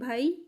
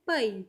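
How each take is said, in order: First: The word is said plainly, without extra force. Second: The word is said with a bit more force. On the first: This is the Hindi way of saying it. "Hindi में हम बोलते हैं भाई" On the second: This is the Punjabi way of saying it. "Means थोड़ा जोर से बोलते हैं भाई"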